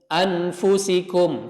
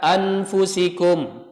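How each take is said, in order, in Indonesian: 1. Bunyi n diucapkan penuh dan jelas. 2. Bunyi n diucapkan penuh dan jelas.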